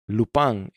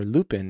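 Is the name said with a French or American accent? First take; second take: French; American. First: It is said with a French pronunciation. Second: It is said with an American pronunciation.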